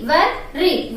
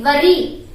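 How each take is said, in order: First: WOR-, RE as two separate beats; teacher sounding out wor-, then re; syllable by syllable. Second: Said in the usual way. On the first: Shown as a demonstration. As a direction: break worry into wor-, re for learners. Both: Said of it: "how to pronounce that word?".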